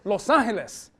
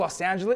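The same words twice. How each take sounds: First: The name is said with Spanish pronunciation. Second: The name is said with English pronunciation. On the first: The speaker calls it right. "it's Los Angeles" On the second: The speaker calls it wrong. "It's not called Los Angeles"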